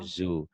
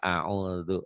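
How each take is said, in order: First: The middle consonant is a z sound. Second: The middle consonant is a soft dh sound. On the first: The speaker calls it wrong. "Kalau orang Betawi" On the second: The speaker calls it right. "yang benar audu dal"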